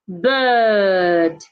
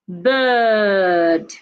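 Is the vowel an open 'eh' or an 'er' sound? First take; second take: er; er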